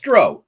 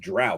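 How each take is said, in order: First: The vowel rhymes with row, as in boat. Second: The vowel does not rhyme with row. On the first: The speaker calls it right. "O W, like row the boat, right?" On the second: The speaker calls it wrong. "Everybody says drow. Bullshit"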